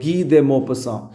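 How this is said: The name is pronounced the French way. "ഇയാളുടെ യഥാർത്ഥ ഫ്രഞ്ച് ഉച്ചാരണമാണ് ഞാൻ വായിച്ചത്"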